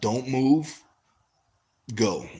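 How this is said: There is a slight pause before "go".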